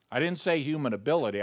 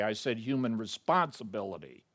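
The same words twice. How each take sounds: First: Ability hit as the wrong word, quick; stress on ability. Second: Human responsibility set apart and falling, the correct word; stress on responsibility. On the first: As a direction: toss off human ability fast as the rejected term. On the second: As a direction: land human responsibility firmly. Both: Shown as a demonstration.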